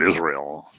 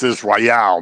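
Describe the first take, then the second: First: The first syllable is stressed, the ending reduced. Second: The final syllable el is stressed and clear. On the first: The speaker calls it wrong. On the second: The speaker calls it right. "the important part is the E L at the end"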